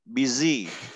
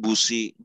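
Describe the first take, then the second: First: It is said with the English pronunciation. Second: It is read like the Indonesian word busi. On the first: The speaker calls it right. "Ingat pengucapannya" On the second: The speaker calls it wrong. "jangan mentang-mentang kamu anak S T M, busi"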